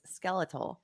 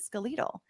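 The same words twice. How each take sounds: First: The word is said the usual American way. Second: The word is said the Australian or British way. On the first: "what we would say is skeletal" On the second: "fairly common in those parts to pronounce it skeletal"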